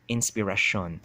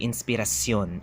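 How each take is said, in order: First: The R is retroflex. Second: The R is trilled. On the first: The speaker calls it wrong. "as a Chabacano speaker would probably say" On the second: The speaker calls it right. "it's supposed to be trilled, not retroflex"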